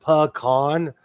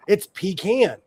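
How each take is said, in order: First: Pecan said pee-KAN; mock the pee-KAN pecan; pecan with a long ee; wrong pecan. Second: Pecan said pih-KAHN; pecan said pih-KAHN, southern way; right pecan. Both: Shown as a demonstration. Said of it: "It's not pecan".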